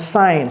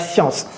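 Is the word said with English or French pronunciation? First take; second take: English; French. First: It is said with an English pronunciation. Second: It is said with a French pronunciation. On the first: The speaker calls it right. "ça se prononce science" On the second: The speaker calls it wrong. "ce n'est pas science"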